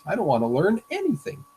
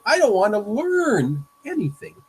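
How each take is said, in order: First: Weight lands on "anything", falling at the end; stress on anything. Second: Slow and loud, leaning hard on "don't"; stress on don't. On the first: Teacher rereads Calvin's line, now stressing "anything". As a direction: ease past "don't", hit "anything". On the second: Teacher reads Calvin's line, stressing "don't" in a loud protest. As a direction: punch "don't", let "anything" fall away. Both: Shown as a demonstration. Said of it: "Or a different emphasis".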